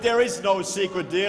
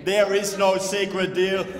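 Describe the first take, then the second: First: The phrase is spoken at a normal pace. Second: The phrase is spoken very slowly.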